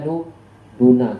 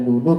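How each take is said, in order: First: The word ends with an a vowel. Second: The word ends with a u vowel. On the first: The word is the object of the verb. "bisa dibaca nu nuna" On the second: The word is the subject of the sentence. "Bisa dibaca nunu"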